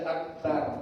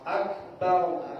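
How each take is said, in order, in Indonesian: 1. Bunyi r diucapkan tipis dan ringan. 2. Bunyi r diucapkan tebal dan bulat. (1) "Jangan dibaca akbar" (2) "Bulat. Kalau dia fathah bulat"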